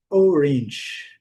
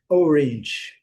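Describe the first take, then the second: The two takes are said the same way.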